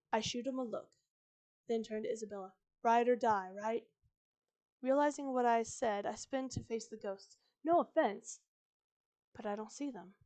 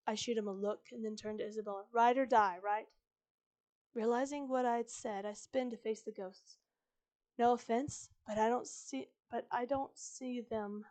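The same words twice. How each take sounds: First: Measured retake with separated phrases; less hurried reading. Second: Hurried story narration; reading too fast. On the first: Shown as a demonstration. Narrator retaking the Isabella scene, less rushed, phrase by phrase. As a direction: give each beat its own pause. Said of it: "Let me try that again". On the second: Real, not acted. Narrator reading Isabella scene aloud, hurrying through it. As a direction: rush through it without letting the beats land. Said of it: "I'm reading this too fast".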